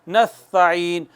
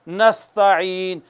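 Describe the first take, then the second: No difference in how they are said.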